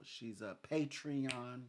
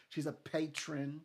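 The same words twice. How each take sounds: First: "Patreon" said as PAY-tree-on, like the website; mispronounced patron. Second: "patron" said as PAY-trun, two syllables; corrected patron. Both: Real, not acted.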